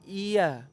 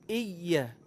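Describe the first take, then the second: First: The y sound is single and short. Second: The y sound is doubled and held. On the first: The speaker calls it wrong. "bukan iya" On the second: The speaker calls it right. "hamzah berharokat kasrah ketemu dengan huruf ya bertasydid"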